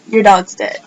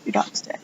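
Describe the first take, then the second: First: Said in the usual way. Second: Whispered bad news; hushed voice delivering the death news. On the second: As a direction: breathe it out like a grim secret. Friend breaks news of dead dog.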